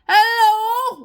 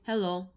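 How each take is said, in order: First: The word is shouted very loudly. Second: The word is said at normal volume. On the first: "they're actually shouting. They're like" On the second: "When they could just be saying"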